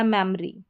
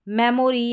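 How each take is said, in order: First: मेमोरी shortened to "mem-ree"; two-syllable pronunciation. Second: मेमोरी in full as "me-mo-ree"; three-syllable pronunciation. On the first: Teacher offering the second of two readings, मेमोरी squeezed to "mem-ree". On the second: Teacher offering the first of two readings, मेमोरी as "me-mo-ree". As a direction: sound the middle "o" in मेमोरी. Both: Shown as a demonstration. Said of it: "दोनों तरीके से आप pronounce कर सकते हैं".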